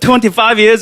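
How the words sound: It is said in a Chinese English accent.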